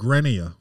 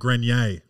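First: The name is pronounced with English sounds. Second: The name is pronounced with French sounds. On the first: "if you're not French, I think you just call it Grenier" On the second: "if you want to keep that French pronunciation"

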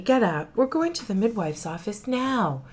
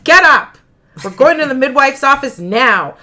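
First: The words are said in a gentle, sweet tone. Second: The words are said in a harsh, demanding tone. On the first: "She's a much nicer wife. She might have said it like that" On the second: "she might have said it nicer than that. That was me adding that inflection"

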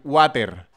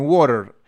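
First: It is said with a Spanish-accented R. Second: It is said with a native English R.

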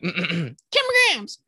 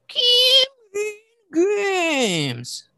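First: The name is said fast. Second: The name is said slowly.

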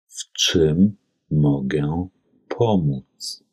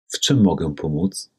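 First: It is spoken slowly and carefully. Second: It is spoken at normal conversational speed. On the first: "anschließend zweimal langsam" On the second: "Einmal in normal gesprochener polnischer Geschwindigkeit"

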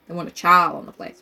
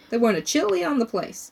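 First: The key word sounds like the word child. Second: The key word sounds like the country Chile. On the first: "Oh, a child" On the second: "I'm pronouncing it like the country"

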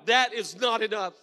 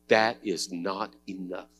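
First: It is said loudly. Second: It is said at normal volume.

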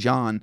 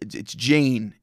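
First: The name is said with a French accent. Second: The name is said with an Australian accent. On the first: "they say Jean in the French accent" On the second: "if I'm speaking in an Australian accent"

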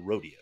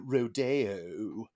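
First: It is said like the everyday cowboy word. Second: It is said the special way of the ballet title. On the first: It names the ordinary cowboy event. "of course we can't call it a rodeo" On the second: It names the classical ballet. "It has to be a Rodeo"

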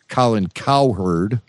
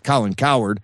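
First: The name is said at normal speed. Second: The name is said quickly, run together.

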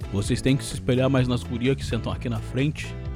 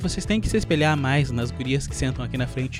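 First: It is said in a plain, ordinary voice. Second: It is said in an affected, mannered voice. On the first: The speaker calls it wrong. "Na verdade ele não falava assim" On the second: The speaker calls it right. "ele era um fresco"

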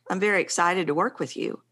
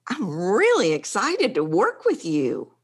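First: It is said in a restrained, low-energy way. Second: It is said with big, genuine excited energy.

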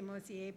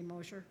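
First: The name is said the French way. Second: The name is said the American way.

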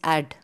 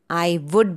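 First: It is shortened into one contracted syllable. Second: Both words are said in full. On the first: "the weaker form" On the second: "I would becomes add"

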